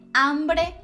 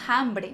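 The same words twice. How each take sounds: First: The word starts directly with the vowel. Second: The word starts with an audible breathy h. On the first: The speaker calls it right. "não tem som" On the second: The speaker calls it wrong. "Nada de dizer hambre"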